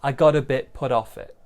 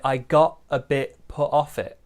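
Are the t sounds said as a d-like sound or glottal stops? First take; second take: d sound; glottal stop. First: The t sounds are soft d-like taps. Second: The t sounds are cut off as glottal stops. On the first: "More of a D sound for me" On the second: "This one is using that glottal stop"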